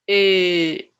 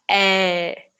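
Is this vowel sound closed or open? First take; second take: closed; open. First: The vowel is closed and lower-pitched. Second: The vowel is open and wide. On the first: The speaker calls it right. "mais fechado" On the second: The speaker calls it wrong. "e não é"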